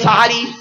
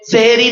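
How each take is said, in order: First: The word begins with 'sa' and has 'ha'. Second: The word begins with 'se' and has 'he'. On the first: The speaker calls it right. "সেহেরি না সাহারি?" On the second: The speaker calls it wrong. "সেহেরি না সাহারি?"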